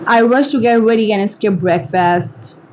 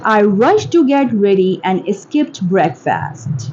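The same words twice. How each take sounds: First: Said in the usual way. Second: Slow, careful enunciation; slow model reading. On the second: Shown as a demonstration. Teacher models a line for English shadowing, slowly. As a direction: read it slowly, word by word.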